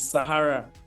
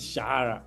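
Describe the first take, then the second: First: The word starts with an s sound. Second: The word starts with an sh sound. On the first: The speaker calls it right. "it is Sahara" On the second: The speaker calls it wrong. "what is Shahara?"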